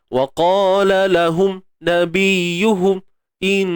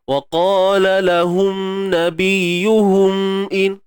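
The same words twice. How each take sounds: First: The nasal hum stops and starts abruptly. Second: The nasal hum is stretched out long. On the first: "Nampak tak bunyi terhenti-henti?" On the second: "jangan pula kita panjangkan dia"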